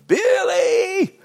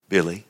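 First: Very high, loud holler of a name; long piercing call for a child; yelled call. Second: Low, unforced call of a name; gentle call. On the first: Retold or imitated. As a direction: imitate grandmother yelling across the farm. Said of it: "just yell it out". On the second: Acted. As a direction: call the child tenderly, without yelling. God calling him home, gently.

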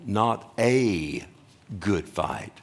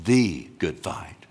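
First: "a" stretched as a long "ay", then a pause; slowly single out "a" as "ay" before "good fight"; stress on A. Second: "the" stretched as a long "thee"; slowly single out "the" as "thee" before "good fight"; stress on THE. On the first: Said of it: "There's no such thing as a good fight". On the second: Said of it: "But there is something". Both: Shown as a demonstration.

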